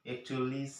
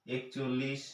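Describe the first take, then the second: First: Said in the usual way. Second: একচল্লিশ said slowly, with the চল্লিশ clearly stressed; একচল্লিশ spelled out syllable by syllable; drawn-out teaching count. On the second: Shown as a demonstration. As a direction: stretch একচল্লিশ so children hear the ল্লিশ ending. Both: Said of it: "দেখুন একই রকমভাবে".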